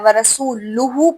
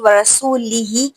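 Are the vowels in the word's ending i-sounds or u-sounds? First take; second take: u-sounds; i-sounds. First: The ending vowels are both u-sounds. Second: The ending vowels are both i-sounds. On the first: God disowns the Messenger as well. The speaker calls it wrong. "ज़ेर को पेश कर दें" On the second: The Messenger also disowns the polytheists. The speaker calls it right. "ज़ेर"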